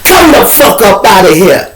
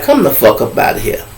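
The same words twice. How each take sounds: First: Higher, louder order to get her out; intimidating command. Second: Said in the usual way. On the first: Retold or imitated. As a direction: bark it to scare her out the door. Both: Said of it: "I had to intimidate her".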